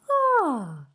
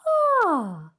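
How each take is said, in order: First: The sigh is pitched high. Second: The same.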